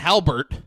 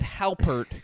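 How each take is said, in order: First: The middle consonant is a B sound. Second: The middle consonant is a P sound. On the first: The speaker calls it wrong. "and then you said Halbert" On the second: The speaker calls it right. "I said Halpert with a P"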